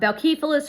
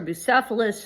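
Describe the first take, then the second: First: The name is said the more Greek way. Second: The name is said the less Greek way.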